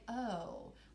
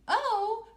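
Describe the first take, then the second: First: It is said in a worried way. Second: It is said with excitement. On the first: The speaker is anxious about what comes next. The speaker calls it right. "like I'm kind of worried" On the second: The speaker is happy about what comes next. The speaker calls it wrong. "Why did I not say it excitedly?"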